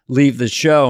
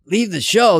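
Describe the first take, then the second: First: Said in the usual way. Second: "Leave the show" as a raised, retold challenge; incredulous echo. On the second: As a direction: LEAVE THE SHOW thrown back higher, as a question. Friend's disbelieving echo, retold.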